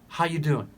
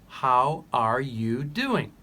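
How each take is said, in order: First: The words blur together, with 'you' as 'ya'. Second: Every word is said fully and separately. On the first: "they often shorten the R sound, they make it softer, and they change the U to ya" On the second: "The question is"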